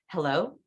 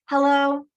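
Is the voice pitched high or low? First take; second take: low; high. First: It is said low, on the out breath. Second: It is said high, on the in breath.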